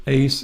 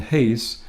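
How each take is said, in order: First: "ace" begun on the bare vowel, no h; no rough breathing. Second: "haste" begun with an audible h; rough breathing. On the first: Teacher contrasting two Greek words, "ace" with no initial h. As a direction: say "ace" with no h sound at the start. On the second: Teacher contrasting two Greek words, "haste" with initial h sound. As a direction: put a breathed h at the start of "haste". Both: Shown as a demonstration. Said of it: "It's got the rough breathing there".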